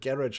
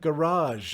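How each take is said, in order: First: It is said with the Commonwealth pronunciation. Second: It is said with the American, French-like pronunciation. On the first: "like us Commonwealthers say" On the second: "you kept their pronunciation"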